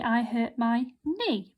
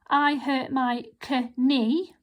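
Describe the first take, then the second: First: Knee starts with an n sound. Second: A k sound is heard before knee. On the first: The speaker calls it right. "We say ... because that's a silent k" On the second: The speaker calls it wrong. "we don't say"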